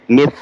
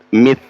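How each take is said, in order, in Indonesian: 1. Konsonannya adalah bunyi th, dengan lidah di antara gigi. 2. Konsonannya adalah bunyi th, dengan lidah di antara gigi.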